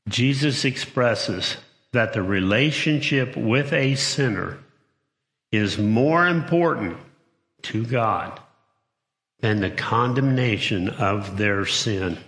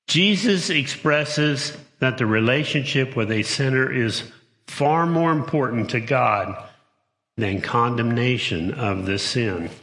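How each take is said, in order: First: It is read slowly. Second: It is read at a normal pace.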